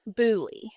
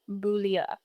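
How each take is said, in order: First: The name is said with an English pronunciation. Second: The name is said with a French pronunciation. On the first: "in English, we would pronounce it Booley" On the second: "In French, ... it's Boulia"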